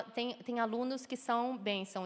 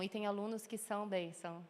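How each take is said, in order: First: Said in the usual way. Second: Bênção said low and much softer, dripping irony; ironic bênção. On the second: Shown as a demonstration. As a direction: drop the voice low on bênção to mean the opposite. (bênção dito baixo e irônico)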